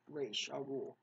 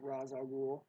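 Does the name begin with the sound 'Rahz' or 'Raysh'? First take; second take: Raysh; Rahz. First: The first word sounds like 'Raysh'. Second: The first word sounds like 'Rahz'. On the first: This is the name's original pronunciation. The speaker calls it right. "Raish is how it's really pronounced" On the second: This is the version used in a film. The speaker calls it wrong. "Ra's is Christopher Nolan's pronunciation"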